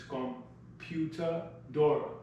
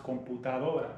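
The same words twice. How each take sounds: First: Computadora read with English sounds, slow; English-style reading. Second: Computadora said the Spanish way, kom-poo-ta-DO-ra; Spanish pronunciation. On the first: Teacher sounds computadora out in English, slowly. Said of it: "if we phonetically pronounce it in English". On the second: Teacher models computadora in Spanish, clearly. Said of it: "In Spanish, it's pronounced". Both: Shown as a demonstration.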